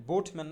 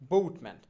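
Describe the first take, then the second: First: Said in the usual way. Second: বোটম্যান with a gliding "bout" vowel, loud first beat; corrected pronunciation. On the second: Shown as a demonstration. Teacher drilling boatman with learners, বোটম্যান with "ou" glide. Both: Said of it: "বোটম্যান না".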